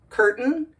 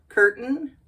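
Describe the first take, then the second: The two takes are said the same way.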